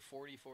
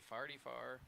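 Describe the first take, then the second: First: It is said in a standard accent. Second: It is said in a St. Louis accent.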